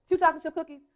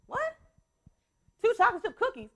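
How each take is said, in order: First: Said in the usual way. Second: Higher, incredulous repeat; mock disbelief at the request; surprised mom. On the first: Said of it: "this happens every day". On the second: Mom repeats her son's early cookie request, surprised. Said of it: "And I say".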